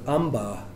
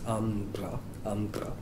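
First: The consonant after the nasal is a plain stop. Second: The consonant after the nasal is trilled. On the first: "the word amba" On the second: "can be pronounced as ambra"

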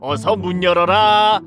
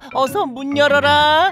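First: It is said in the wolf's own rough voice. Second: It is said in a put-on gentle mother voice.

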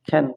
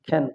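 No difference in how they are said.

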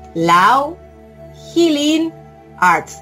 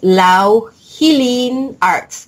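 First: It is said slowly and deliberately. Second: It is said at normal speed.

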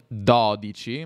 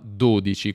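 First: The first vowel is an open o. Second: The first vowel is a closed o. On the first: The speaker calls it wrong. "non dodici" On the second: The speaker calls it right. "questa è una O"

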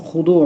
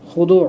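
Both takes have the same delivery.

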